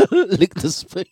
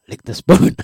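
First: Mock sly line that collapses into giggles; breaking up laughing. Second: Louder, higher sly taunt; the ex's voice, held this time. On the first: Host attempts the ex's spoon line, laughing through it. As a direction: try the voice but crack up mid-line. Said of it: "I can't even do it straight". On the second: Acted. Host redoes the ex's spoon line, louder mock sly taunt. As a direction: lean into the line and keep it together. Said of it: "just work with me".

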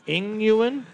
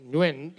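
First: "Ing Nguyen" read letter by letter as Ing Yu-en, asking; childish misreading. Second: "Nguyen" said as one syllable nuin, no Ing; "Nguyen" said smoothly as one word nuin; correct Nguyen. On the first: Retold or imitated. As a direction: sound out "Ing Nguyen" wrongly, puzzled. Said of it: "when I was younger". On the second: Shown as a demonstration. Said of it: "I can do it now".

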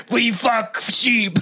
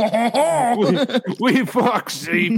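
First: Put-on French accent. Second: Slow mock French accent; a hint of a French accent, laughing. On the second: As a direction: drawl it out in a hammy French accent.

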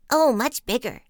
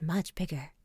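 First: Put-on high, loud young frogs exclaiming; loud, raised storybook exclamation; crying out. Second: Said in the usual way. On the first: A narrator's reading. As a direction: cry out excitedly as little frogs. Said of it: "they cried".

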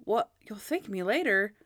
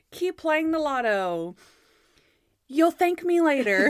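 First: Puzzled echo of a catchphrase; lightly incredulous repeat, near normal pitch; Monk. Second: Loud, high, stretched TV sign-off; hammed-up catchphrase delivery; Natalie. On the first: Retold or imitated. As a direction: question it in understated disbelief. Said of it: "And then Monk's like". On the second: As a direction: badly act a lottery host's farewell. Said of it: "Bad Natalie acting is so funny".

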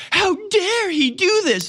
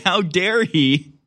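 First: High, slow, prissy mock outrage. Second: Slow, drawn-out mock indignation; mock outrage. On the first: Mocking Vineyard residents, slow, high mock outrage. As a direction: squeal it out like a scandalized snob. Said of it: "people are just like". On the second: Mocking outraged residents, drawn-out mock indignation. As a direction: savor each word like a scandalized socialite. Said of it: "Oh dear. Oh my".

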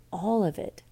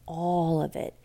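Both takes have the same delivery.

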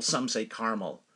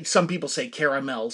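First: "caramel" pronounced CAR-mul; two-syllable caramel. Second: "caramel" pronounced CARE-uh-mel; three-syllable caramel. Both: Shown as a demonstration.

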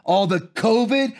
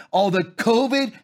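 No difference in how they are said.

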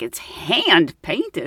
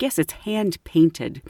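First: Very slow, stunned repeat; incredulous echo. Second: Slow, lightly pompous shopkeeper; highbrow man. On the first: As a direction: draw out HAND PAINTED in mock disbelief. Repeats it back in disbelief. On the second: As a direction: stretch it with a touch of snobbery. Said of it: "Let's say that, highbrow man". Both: Retold or imitated.

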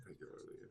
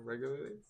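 First: Whispered word Regularly. under the breath. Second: Said in the usual way. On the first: Shown as a demonstration. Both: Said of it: "It's a weird word".

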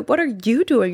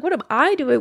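First: Indignant retold retort with "you" punched; stress on YOU. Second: Higher, indignant retold retort with "I" punched; stress on I. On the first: Retelling a retort to the fiancé on the floor, accusing stress on "you". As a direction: turn it on the other person, leaning on "you". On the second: Retelling a retort to the dazed fiancé, incredulous stress on "I". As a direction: throw the question back, leaning on "I".

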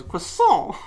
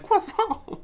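First: "Croissant" said higher as "kwisol"; odd croissant pronunciation. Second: "Croissant" very high, falling, as "wisso"; odd croissant pronunciation. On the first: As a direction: put an odd kw sound on Croissant. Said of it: "He goes". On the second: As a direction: squeak Croissant with a high fall. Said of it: "He goes like". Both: Retold or imitated.

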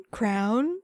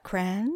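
First: "Crown" as a question, rhyming with down; teasing "Crown". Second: "Cran" as a soft questioning rhyme of ran; teasing "Cran". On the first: Partner teasing her with both words, "Crown" questioned. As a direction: offer "Crown" lightly as a question. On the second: Partner teasing her with both words, "Cran" questioned. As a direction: offer "Cran" lightly as a question. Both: Retold or imitated. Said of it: "He's like".

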